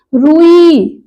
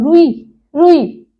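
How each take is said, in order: First: रुई drawn out as rūū-ī; long first vowel. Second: रुई with a quick short ru; short first vowel. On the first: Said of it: "बड़े ऊ की मात्रा". (रुई में ऊ खींचकर) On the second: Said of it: "छोटे ऊ की मात्रा लगी". (रुई में छोटा उ) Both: Shown as a demonstration.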